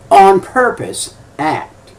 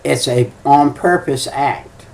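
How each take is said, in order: First: On purpose act said slowly with On lifted and leaned on; slow emphatic repeat that punches On; stress on On. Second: Said in the usual way. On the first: Shown as a demonstration. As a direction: drag out On purpose act, hitting On hardest. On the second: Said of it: "You know what it is?".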